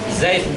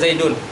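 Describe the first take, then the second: First: The word ends bare, with no added ending. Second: The word ends with an added -un sound. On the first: The speaker calls it right. "tapi dibaca Zaid" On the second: The speaker calls it wrong. "tidak boleh baca Zaidun"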